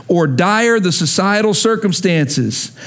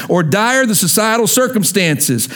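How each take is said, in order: Both takes have the same delivery.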